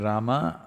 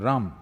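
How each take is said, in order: First: The final vowel is fully pronounced. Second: The final vowel is cut off, Hindi-style.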